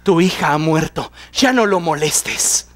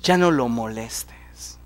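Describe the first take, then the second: First: A lightly voiced bearer of bad news; grim messenger. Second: Hushed, lower, slow whisper. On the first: Messenger telling Jairo his daughter died, somber and low. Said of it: "llega alguien de la casa de Jairo y le dice". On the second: Shown as a demonstration. Echoing the deadly news to the church, whispered. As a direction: breathe the words out like a cruel secret.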